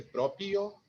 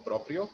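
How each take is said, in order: First: "propio" said the Spanish way, no R in the second syllable; "propio" as in Spanish, pro-pio; "propio" with a single R; wrong Spanish way. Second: "propio" said as Portuguese próprio, R in both syllables; "propio" with an R in each syllable, pró-prio; "propio" pronounced próprio. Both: Shown as a demonstration. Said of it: "se escribe con R en las dos sílabas".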